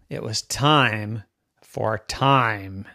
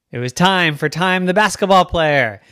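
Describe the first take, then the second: First: Slow, drawn-out narration; suspenseful build-up. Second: Raised, loud storytelling; excited announcement. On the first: Narrator sets up the girl's big moment, slow suspense. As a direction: draw out each word for suspense. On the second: Narrator announces the girl's big moment, excited. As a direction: punch it up with excitement. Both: A narrator's reading.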